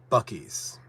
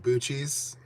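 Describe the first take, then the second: First: The middle consonant is a hard k sound. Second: The middle consonant is a ch sound. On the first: The speaker calls it right. "It's supposed to be Bucky's" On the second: The speaker calls it wrong. "The C in cheese, right? So"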